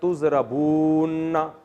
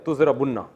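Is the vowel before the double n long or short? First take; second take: long; short. First: The vowel before the double n is long. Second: The vowel before the double n is short. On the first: "तो अब वाव लंबी हो रही है" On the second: "इसको घिड़ची कर दिया"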